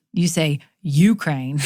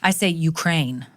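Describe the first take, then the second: First: Imitating his Ukraine, stress on the first syllable; teasing copy of "Ukraine" as "YOU-kraine"; mock Ukraine. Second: "Ukraine" with stress on the last syllable; "Ukraine" stressed on "-kraine"; own Ukraine. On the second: Shown as a demonstration. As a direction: say "Ukraine" as "you-KRAINE", the proper way. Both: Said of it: "How you pronounce U K R A I N E".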